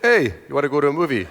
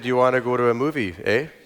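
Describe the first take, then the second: First: It is said in a New York accent. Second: It is said in a Canadian accent.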